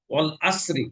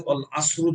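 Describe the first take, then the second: First: ওয়াল আসরি ending in a short i; correct kasra on ra. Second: ওয়াল আসরু ending in u instead of i; wrong damma ending. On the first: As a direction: end আসরি on a clear short i. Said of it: "র এর নিচে জের আছে". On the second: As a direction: end on u: আসরু. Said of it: "জের না পড়ে এখানে বলছে ওয়াল আসরু". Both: Shown as a demonstration.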